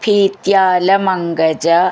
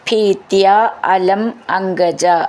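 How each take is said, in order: First: The words are run together as one unit. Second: The words are said apart as separate units.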